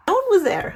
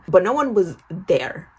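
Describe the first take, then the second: First: Jumps way up into a squeak; squeaky high repeat. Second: Said in the usual way. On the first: Shown as a demonstration. Teen girl echoing herself in a squeaky high voice. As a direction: repeat it again much higher, like a squeak.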